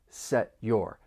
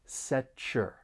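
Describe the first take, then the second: First: A stopped T is followed by a clear y sound. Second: The T and Y blend into a ch sound. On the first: "that stop T and then you're going to hear that y in your" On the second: "the T and Y may blend together and you create this slight ch sound"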